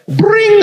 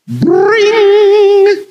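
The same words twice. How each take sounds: First: High ringing bring; phone ring again. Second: High, loud ringing bring; shrill telephone ring, much higher and louder; phone ring. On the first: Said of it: "Can you do that?". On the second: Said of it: "What does a phone sound like?". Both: Shown as a demonstration.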